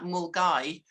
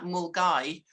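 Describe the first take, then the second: First: The name is said short, like 'mul-guy'. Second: The same.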